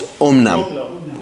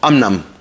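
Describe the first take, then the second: First: The first vowel is an 'oh' sound. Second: The first vowel is an 'ah' sound. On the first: The speaker calls it right. "It's omnam" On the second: The speaker calls it wrong. "There is no word in Hebrew called amnam"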